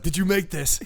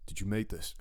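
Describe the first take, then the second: First: Higher, louder, hammed-up amazement; mock delight. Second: Said in the usual way. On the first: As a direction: laugh through an over-the-top delighted question. Retold question, redone with delight.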